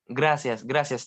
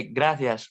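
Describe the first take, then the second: First: "gracias" with a plain S for the C; Spanish S sound. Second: "gracias" with a th sound for the C; Spanish lisped C. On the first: Learner showing the other Spanish variant, "gracias" with S sound. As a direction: say "gracias" as grasias, no lisp. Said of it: "Or in Spanish, when, when I say". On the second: Learner showing Spanish sounds, "gracias" with lisped th. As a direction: say "gracias" as grathias, tongue in front. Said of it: "my tongue is gonna go in front". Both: Shown as a demonstration.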